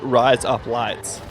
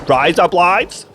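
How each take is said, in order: First: A natural, everyday Australian accent. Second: An exaggerated, caricatured Australian accent. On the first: This is how the speaker actually talks. The speaker calls it right. "When I'm saying" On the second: This is how outsiders imagine the accent sounds. The speaker calls it wrong. "that's what they think the Australian accent is"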